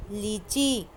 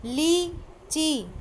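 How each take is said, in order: First: Said in the usual way. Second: लीची very slow, ee held; teacher modelling लीची; slow stretched word. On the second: Shown as a demonstration. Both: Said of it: "बोल बोल कर पढ़ना है".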